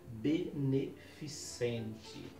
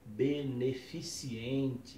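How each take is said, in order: First: No extra 'i' sound comes before the ending. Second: An extra 'i' sound comes before the ending. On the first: The speaker calls it right. "a palavra correta é beneficente" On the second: The speaker calls it wrong. "as pessoas acabam dizendo chá beneficiente"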